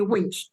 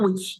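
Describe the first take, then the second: First: "winch" with an n sound before the ch; pronounced with N. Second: "witch" with no n before the ch; pronounced without N. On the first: Correcting the listeners' word, "winch" said with an n. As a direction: say "winch", clearly putting in the n. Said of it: "I want to say winch". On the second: Contrasting the mistaken word, "witch" said without an n. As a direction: say "witch", going straight from vowel to tch. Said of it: "not witch". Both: Shown as a demonstration.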